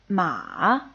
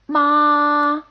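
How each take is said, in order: First: The pitch dips low, then rises again. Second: The pitch stays high and level. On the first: "goes down and then rises back up" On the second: "a rather high, steady tone"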